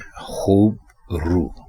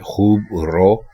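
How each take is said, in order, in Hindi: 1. आखिरी लफ़्ज़ 'oo' स्वर पर खत्म होता है। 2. आखिरी लफ़्ज़ 'o' स्वर पर खत्म होता है। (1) "दुरुस्त लफ्ज़ है खूब रू" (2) "गलत लफ्ज़ है खूब रो"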